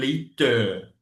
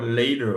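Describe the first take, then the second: First: The middle T is pronounced as a clear T. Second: The middle T is flapped like a quick D. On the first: "Au lieu de dire" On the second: "Les to là deviennent da ou bien ra"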